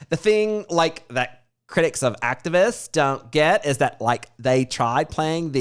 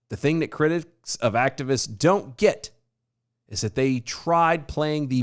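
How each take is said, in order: First: It is read in a put-on Valley Girl voice. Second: It is read in a plain, normal voice.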